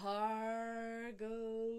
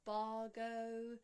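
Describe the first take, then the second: First: The first b has a puff of air. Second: The first b has no puff of air. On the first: The speaker calls it right. "aspirated bar with the H" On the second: The speaker calls it wrong. "So it's not bargo"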